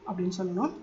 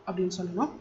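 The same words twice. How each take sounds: The two takes are said the same way.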